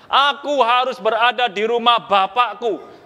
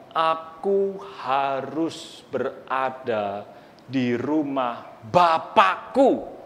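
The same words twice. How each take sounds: First: Said in the usual way. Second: Slow and soft, each word weighed; slow reverent voice of the boy Jesus; slow, solemn. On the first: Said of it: "Yesus bilang gini". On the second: Acted. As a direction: say it gently and solemnly. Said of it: "Yesus katakan".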